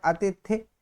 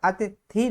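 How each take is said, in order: First: अतिथि ending on a short i; correct short final vowel. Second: अतिथि with the last vowel drawn out to a long ee; wrong long final vowel. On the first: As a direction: keep the last vowel of अतिथि brief, "a-ti-thi". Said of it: "इसका शुद्ध उच्चारण क्या होता है". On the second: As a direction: slowly stretch the end of अतिथि, "a-ti-thee". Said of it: "यहाँ बड़ी की मात्रा चढ़ी है". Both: Shown as a demonstration.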